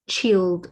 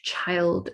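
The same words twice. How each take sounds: First: It is said with the older vowel sound. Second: It is said with the modern vowel sound. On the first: This is how the word sounded before the vowel change. "words that would have been pronounced um, as, let's say, child" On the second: This is how the word sounds after the vowel change. "get turned into child"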